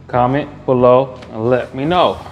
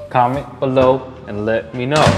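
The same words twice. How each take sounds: The two takes are said the same way.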